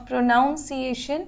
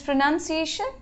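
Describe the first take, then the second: First: "pronunciation" said pro-noun-see-AY-shun; slow "pronunciation" with an ow second vowel; wrong pronunciation. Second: "pronunciation" said pro-nun-see-AY-shun; slow "pronunciation" with an uh second vowel; correct pronunciation. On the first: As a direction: put noun inside "pronunciation". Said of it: "Not pronunciation". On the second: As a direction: put nun inside "pronunciation". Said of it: "it is pronunciation". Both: Shown as a demonstration.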